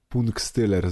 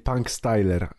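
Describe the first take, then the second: First: The name is pronounced with Polish sounds. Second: The name is pronounced with English sounds. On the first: "czy po polsku" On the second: "zależy czy po angielsku"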